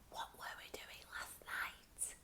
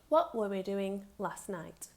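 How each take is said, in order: First: It is said quietly. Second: It is said at normal loudness.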